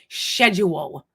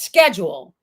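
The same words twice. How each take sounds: First: It is said with a British pronunciation. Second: It is said with an American pronunciation. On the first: The speaker calls it wrong. "how you guys say schedule" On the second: The speaker calls it right. "it's schedule"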